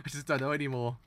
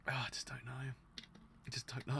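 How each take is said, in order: First: Said in the usual way. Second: Whispered, almost no voice; defeated whisper. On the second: Real, not acted. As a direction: breathe it out, giving up. Despairing mutter after rant.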